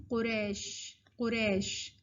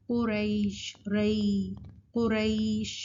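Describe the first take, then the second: First: قریش with a flat "e", qo-resh; wrong reading. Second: قریش as qu-raysh with a held glide; correct leen. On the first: Teacher showing the common mistake, flattened vowel. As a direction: say قریش without the y-glide, softer. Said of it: "غلط پڑھتے ہیں تو کہتے ہیں". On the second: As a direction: stretch the "ay" in قریش. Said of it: "جو صحیح طریقہ ہے". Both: Shown as a demonstration.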